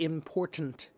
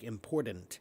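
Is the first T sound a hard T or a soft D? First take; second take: hard T; soft D. First: The first T is a crisp, hard T. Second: The first T is softened toward a D. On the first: The speaker calls it right. "It should be important" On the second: The speaker calls it wrong. "the first T will be a soft T. It's more like a, soft, uh, uh, a D"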